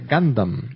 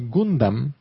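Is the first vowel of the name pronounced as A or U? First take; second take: A; U. First: The first vowel sounds like A. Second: The first vowel sounds like U. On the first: This is how the name is supposed to be said. The speaker calls it right. "Se pronuncia Gundam" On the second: This is how the group usually says it. The speaker calls it wrong. "nosotros decimos Gundam"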